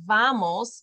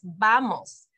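First: Vamos with teeth on the lip, English V; English hard V. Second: Vamos with a soft B-like V, slowly; Spanish soft V. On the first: Teacher shows the wrong English V in vamos. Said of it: "the V in Spanish is not a hard V". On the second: Teacher shows the right Spanish V in vamos. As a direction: vamos said like bamos, lips together. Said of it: "more like a B". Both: Shown as a demonstration.

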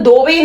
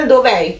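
First: ਦੋਵੇਂ as "dove", with no separate final è; wrong run-together "dove". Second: ਦੋਵੇਂ ending in a distinct, falling "è"; correct "dov'è". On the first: Teacher shows learners what not to say, ਦੋਵੇਂ without the separate è. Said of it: "ਇਹਨੂੰ ਦੋਵੇਂ ਨਹੀਂ ਕਹਿਣਾ". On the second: Teacher corrects learners because of the apostrophe, ਦੋਵੇਂ with its final è sounded. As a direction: bring out the final è in ਦੋਵੇਂ, dov-è. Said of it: "ਇਹਨੂੰ ਕਹਿਣਾ ਦੋਵੇਂ". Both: Shown as a demonstration.

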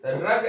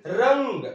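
First: रग said plainly as "rag", with no nasal hum before the g; no nasal sound. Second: रंग said slowly with a clear nasal "ng" before the g; with nasal sound. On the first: Teacher shows students the wrong reading रग, without nasal. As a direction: drop the nasal in रग, slow and clear. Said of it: "ऐसे ये रग लिखा गया". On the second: Teacher gives students the right reading रंग, nasal and slow. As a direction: hum the anusvara through the nose in रंग. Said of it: "लेकिन रंग". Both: Shown as a demonstration.

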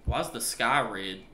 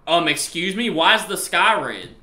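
First: Said in the usual way. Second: Louder, higher, slow incredulous question; alarmed disbelief. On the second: Real, not acted. Player seeing a red sky, alarmed disbelief. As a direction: demand an answer, loud and drawn out.

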